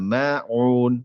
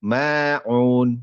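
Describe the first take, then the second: Both takes have the same delivery.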